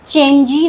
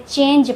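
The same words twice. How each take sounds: First: चेंजी with the final E sounded as ee; wrong pronunciation. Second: Said in the usual way. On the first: Shown as a demonstration. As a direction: say चेंजी in two syllables, ending in ee. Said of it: "नहीं पढ़ते हैं". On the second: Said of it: "पढ़ते हैं".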